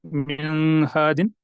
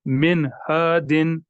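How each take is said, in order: First: "मिन हादिन" with the न altered, not clear; mock wrong reading of मिन; wrong modified noon. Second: "मिन हादिन" slow, न of मिन sounded cleanly; careful clear recitation; clear noon. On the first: Teacher shows students what not to do. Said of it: "ऐसा नहीं करना है कि". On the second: Teacher gives students the correct reading. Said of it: "बिल्कुल हम इसको clearly पढ़ेंगे". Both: Shown as a demonstration.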